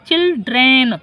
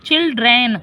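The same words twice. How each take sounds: No difference in how they are said.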